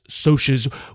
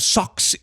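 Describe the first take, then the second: First: The word is said with an 'sh' sound. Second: The word is said with a 'ks' sound. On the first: The speaker calls it right. "which is pronounced that way" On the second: The speaker calls it wrong. "instead of socks, even though socks would be more fun"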